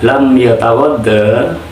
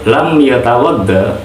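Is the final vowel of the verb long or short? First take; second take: long; short. First: The final vowel is long. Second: The final vowel is short. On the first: The final weak letter has not been dropped. "jika saja alifnya tidak dibuang" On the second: The verb is in the jussive mood. "dengan membuang huruf ilat yang merupakan alif"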